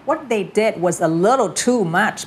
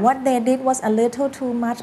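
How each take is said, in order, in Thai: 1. การเน้นเสียงจะลงที่คำสำคัญบางคำเท่านั้น ตามอารมณ์ที่ใส่เข้าไป 2. ทุกคำถูกเน้นเสียงเท่ากันหมด ไล่ไปทีละคำ (1) "อย่างเงี้ย ... แบบนี่มันเกินไปแล้วนะ" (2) "มันไม่ใช่แบบว่าเน้นๆๆๆไปเรื่อยๆหรือ ... มันก็ไม่ไปกับเนื้อหา"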